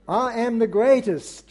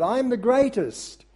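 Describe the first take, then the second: First: A touch of an American boxer's boast; lightly American, boasting; American accent. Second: Higher, lightly American boast; mild American accent, pitched up and proud. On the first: Preacher to congregation, quoting Muhammad Ali in a mild American accent. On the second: Preacher retrying Muhammad Ali's boast in a mild American accent. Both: Retold or imitated. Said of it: "my American accent leaves a bit to be desired".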